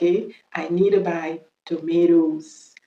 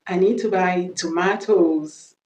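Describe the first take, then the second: First: Very slow American "tomatoes", to-MAY-does; American accent. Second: Slow British "tomatoes", to-MAH-toes; British accent. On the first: Teacher drilling the plural slowly, American accent. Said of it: "l'accent américain". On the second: Teacher modelling the plural, British accent. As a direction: say "tomatoes" slowly with a British long "ah". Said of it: "on va faire l'accent british". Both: Shown as a demonstration.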